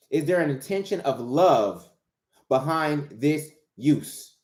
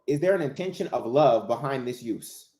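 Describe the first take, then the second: First: Slow, with a pause before "behind this use"; slow, emphatic repeat. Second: Said in the usual way. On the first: Real, not acted. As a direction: draw out "behind this use", word by word. Question repeated slowly for emphasis.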